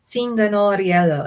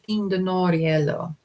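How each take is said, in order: First: The word begins with an 's' sound. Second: The word begins with a 't' sound. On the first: This uses the newer dialect's sound change. "Galadriel says Sindanoriello" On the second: This is the older form. "instead of"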